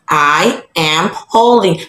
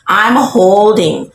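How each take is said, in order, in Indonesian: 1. 'I am' diucapkan sebagai dua kata penuh. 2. 'I am' disingkat jadi satu suku kata. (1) "Jadi baru kamu pakai to be" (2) "Biar agak-agak kedengaran natural pula kamu, kamu singkat lah"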